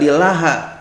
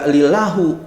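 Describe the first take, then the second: First: The word ends with an a vowel. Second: The word ends with an u vowel. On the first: "enggak lillaha" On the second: "Kan dibacanya enggak lillahu"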